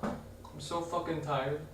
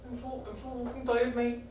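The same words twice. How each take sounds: First: Said in the usual way. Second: High, soft put-on Irish accent; attempted Irish lilt, a bit raised and hushed. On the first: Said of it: "I'm trying to replicate some of the funny voices". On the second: Shown as a demonstration. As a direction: try out a funny Irish voice, softly. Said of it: "things sounding Irish".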